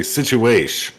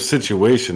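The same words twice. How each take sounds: First: Situation clipped to "situash"; shortened situation. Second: Said in the usual way. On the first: Shown as a demonstration. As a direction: say situation without its last syllable, ending on "sh". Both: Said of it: "they shorten all these words".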